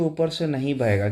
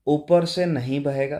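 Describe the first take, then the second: First: Said in the usual way. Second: "ऊपर से नहीं बहेगा" said slowly, each word spaced out; teacher slowly spelling out the correct answer; slow emphatic answer. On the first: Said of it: "सही answer होना चाहिए". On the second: Shown as a demonstration. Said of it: "इसका सही answer होना चाहिए".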